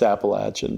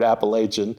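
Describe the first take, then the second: First: It is said the local regional way. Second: It is said the outsider's, non-local way.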